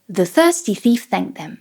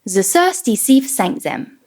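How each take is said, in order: First: The th sounds are soft and airy, tongue-behind-teeth. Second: The th sounds are replaced by s and z. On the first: "place the tongue behind the teeth and try to add some air" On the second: "Let's start with the S and Z"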